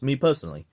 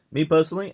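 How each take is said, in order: First: Said in the usual way. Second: "Me personally" higher and louder, stressed; emphatic repeat. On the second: Real, not acted. Insisting to the viewers, stressing "Me personally" loudly. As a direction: punch "Me personally" up high and loud.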